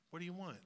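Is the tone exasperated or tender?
tender. It is said in a tender tone.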